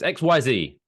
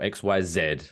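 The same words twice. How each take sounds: First: The last letter is pronounced zee. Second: The last letter is pronounced zed.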